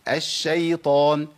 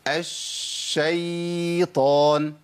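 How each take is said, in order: First: The ya sound is short, not drawn out. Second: The ya sound is drawn out and lengthened. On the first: The speaker calls it right. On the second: The speaker calls it wrong.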